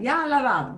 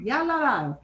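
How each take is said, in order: First: The words ya and ha run together quickly. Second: The same.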